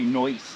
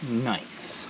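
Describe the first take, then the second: First: The vowel is a broad 'oy' sound. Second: The vowel is a plain standard 'eye' sound.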